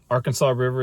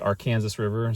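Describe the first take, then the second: First: The name is said the general, non-local way. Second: The name is said the local area's way.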